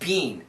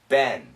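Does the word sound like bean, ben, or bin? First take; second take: bean; ben. First: The vowel is long, like bean. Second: The vowel is short, like ben. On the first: "she says bean. The first time, really bean" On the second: "in America, this pronunciation is ben"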